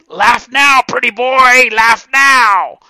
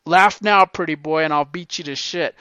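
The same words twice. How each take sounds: First: High, loud taunting shout; screaming gym coach voice; coach's voice. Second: Coach taunt. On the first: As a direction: bark it like a mean old coach. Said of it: "he used to get in this voice". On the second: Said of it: "they taught you that". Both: Retold or imitated.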